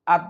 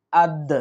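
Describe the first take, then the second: First: আদ cut off on an unreleased final consonant; stopped dead, no bounce. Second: আদ with a short echoing release on the d; qalqalah bounce. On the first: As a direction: stop আদ short without any echo. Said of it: "এইভাবে থেমে যাই". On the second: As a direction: bounce off the final দ in আদ. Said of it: "সহি শুদ্ধ উচ্চারণ হবে". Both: Shown as a demonstration.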